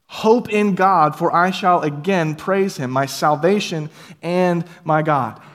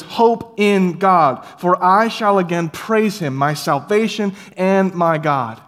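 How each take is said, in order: First: Drawn-out, measured psalm refrain; slow solemn scripture reading. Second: Drawn-out, louder psalm chorus; slow triumphant refrain. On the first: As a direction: intone it slowly like a chorus. Psalm refrain read slowly. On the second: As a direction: proclaim it slowly with hope. Psalm refrain repeated slowly. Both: Acted.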